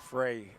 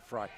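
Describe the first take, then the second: First: The vowel in the name sounds like 'day'. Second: The vowel in the name sounds like 'eye'. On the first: The speaker calls it wrong. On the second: The speaker calls it right.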